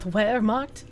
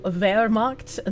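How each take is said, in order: First: The word begins with a W sound. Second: The word begins with a V sound. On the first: The speaker calls it wrong. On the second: The speaker calls it right. "German W is pronounced as V"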